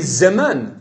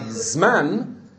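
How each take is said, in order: First: A short vowel separates the z and m. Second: The z runs straight into the m. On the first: The speaker calls it right. "it should be zeman" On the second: The speaker calls it wrong. "It's not zman"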